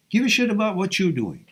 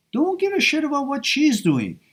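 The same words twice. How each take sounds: First: Raised pitch, weight on YOU'RE; stress on YOU'RE. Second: High, emphatic DON'T, weight on SHE'S; stress on SHE'S. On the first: Coach pointing a guy to his own life, stressing YOU'RE. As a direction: turn it round onto YOU'RE. Contrasts listener's own doings with hers. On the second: Coach warning a guy off his ex, stressing SHE'S. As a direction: set SHE'S up against the listener, pitched high. Contrasts her doings with listener's own. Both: Real, not acted.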